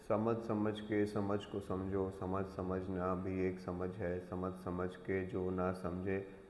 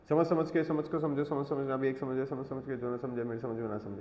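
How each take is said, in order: First: It is said slowly and leisurely. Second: It is said very fast.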